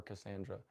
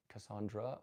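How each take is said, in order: First: "Cassandra" with middle syllable "SAN"; "Cassandra" with the "a" of "hand" in the middle; short-a pronunciation. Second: "Cassandra" with middle syllable "SAHN"; "Cassandra" with an open "ah" in the middle; broad-a pronunciation. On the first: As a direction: say "Cassandra" as kuh-SAN-druh. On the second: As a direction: say "Cassandra" as kuh-SAHN-druh. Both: Shown as a demonstration. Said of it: "I hope I'm pronouncing your name right".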